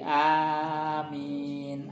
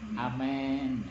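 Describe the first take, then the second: First: Both the first and second vowels are long. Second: The first vowel is shifted toward an e sound. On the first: "a-nya panjang, min-nya juga panjang" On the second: "ismalah, ... seperti kalau kita dengar aminnya orang Nasrani"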